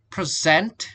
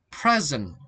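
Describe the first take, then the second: First: "present" with light first syllable, strong rising ZENT; verb stress. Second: "present" stressed on PRE, falling away; noun stress. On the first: Teacher contrasting verb with noun, "present" stressed on the second syllable. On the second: Teacher contrasting noun with verb, "present" stressed on the first syllable. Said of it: "is a noun". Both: Shown as a demonstration.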